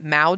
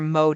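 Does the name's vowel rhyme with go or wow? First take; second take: wow; go. First: The vowel rhymes with wow. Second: The vowel rhymes with go. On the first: "it's also could be Mao because it rhymes with wow" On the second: "Like you mow your lawn?"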